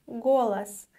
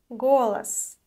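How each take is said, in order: The two takes are said the same way.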